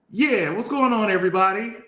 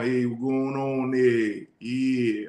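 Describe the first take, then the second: First: Higher-pitched hometown voice, no country twang; Jordan. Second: Slow, drawn-out country twang; country accent. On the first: Man mimicking how his Detroit friend always sounded, higher-pitched impression. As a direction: imitate a friend's usual high, lively greeting. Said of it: "Jordan's voice was always like". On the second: Man mimicking his friend's acquired Tennessee voice, slow country accent. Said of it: "he had had this country accent". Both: Retold or imitated.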